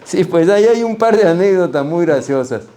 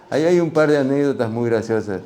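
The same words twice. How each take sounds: First: Sí, pues ahí hay un par de anécdotas muy graciosas said high and loud; eager. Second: Said in the usual way. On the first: Real, not acted. Answering the interviewer, eager and loud. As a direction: jump in eagerly, pitched up. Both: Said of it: "repeated line".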